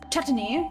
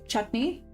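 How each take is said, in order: First: The word is pronounced in an odd, weird way. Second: The word is pronounced in the ordinary way. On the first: "he pronounces things so weirdly" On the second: "I normally said"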